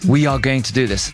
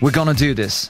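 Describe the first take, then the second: First: Every word is said in full, without reduction. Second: The words are contracted and reduced to gonna. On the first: "正しい英語で言うとWe are going to do this" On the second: "もっとカジュアルに、We are を短くしてWe're gonna"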